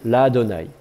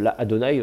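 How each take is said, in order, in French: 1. Le a est long et se fond en une seule syllabe. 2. Le a est bref, avec une deuxième syllabe séparée. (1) "une voyelle ouverte et un A un peu plus long" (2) "on avait une deuxième syllabe"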